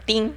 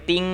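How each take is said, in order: First: The sound is very short and clipped. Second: The sound is drawn out and long. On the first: The warning sound is barely noticeable. "ติ้งนิดเดียวอย่างเงี้ย" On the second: The warning sound lasts a long time. "ไม่ติ้งยาวอย่างเงี้ย"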